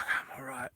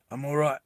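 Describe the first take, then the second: First: Breathless whispered "I'm all right"; hushed wounded reassurance; weak whisper. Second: Said in the usual way. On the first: Retold or imitated. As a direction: barely breathe the words out. Wounded man reassuring, retold.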